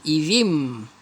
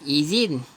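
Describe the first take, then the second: First: The word ends with an m sound. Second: The word ends with an n sound. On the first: The speaker calls it right. "Tetapi bacanya izim" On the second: The speaker calls it wrong. "asalnya izin"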